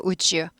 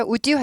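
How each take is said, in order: First: "would you" blended to woo-jyo; softened would you. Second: "would you" with a hard d, woo-dyoo; unblended would you. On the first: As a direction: let d and y merge into j in "would you". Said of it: "부드러운 발음". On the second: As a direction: keep d from becoming j in "would you". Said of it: "would you 하지 않고". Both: Shown as a demonstration.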